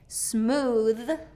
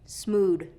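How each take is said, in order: First: It ends with a voiced th sound. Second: It ends with a d sound. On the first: The speaker calls it right. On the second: The speaker calls it wrong.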